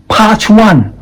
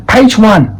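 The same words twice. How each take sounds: First: PAGE said as "pahj"; wrong open A. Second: PAGE said as "payj"; long A. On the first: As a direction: say PAGE with the vowel of "park". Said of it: "You will not say". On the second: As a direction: glide the A in PAGE, pitched high. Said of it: "the vowel sound is A". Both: Shown as a demonstration.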